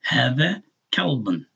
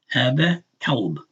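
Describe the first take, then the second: First: "kalbun" with an added -un ending; tanween ending. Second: "kalb" as one syllable, no -un; without tanween. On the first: Showing learners the tanween, ending voiced. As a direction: slowly sound the -un on "kalbun". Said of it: "That, that un is only because". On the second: Showing learners the bare word, ending dropped. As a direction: slowly stop "kalb" on the b. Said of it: "only because of the Dhamma Tanween". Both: Shown as a demonstration.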